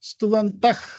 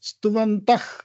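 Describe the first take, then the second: Both takes have the same delivery.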